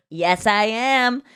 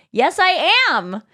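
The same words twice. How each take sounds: First: Slow retold reply at usual pitch; understated claim. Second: Slow, higher-pitched retold insistence; insistent claim. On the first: Comedian answering a man who can't hear her, understated. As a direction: repeat it slowly and evenly, without pushing. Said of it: "I just kind of said it to him". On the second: Comedian announcing herself to the doubting couple, insistent. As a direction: draw it out higher so they finally get it. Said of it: "then she turns around and go".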